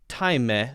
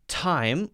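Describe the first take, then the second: First: An extra vowel sound follows the final M. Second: It ends on the M with no extra vowel. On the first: The speaker calls it wrong. "we don't say time" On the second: The speaker calls it right. "We don't pronounce the E"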